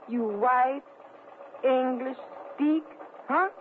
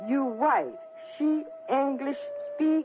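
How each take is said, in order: First: It is said very slowly. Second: It is said at normal speed.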